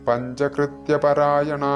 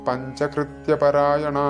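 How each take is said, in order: No difference in how they are said.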